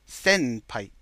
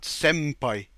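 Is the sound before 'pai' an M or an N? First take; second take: N; M. First: The middle sound is an n. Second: The middle sound is an m. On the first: The speaker calls it right. "so with an N" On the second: The speaker calls it wrong. "not M"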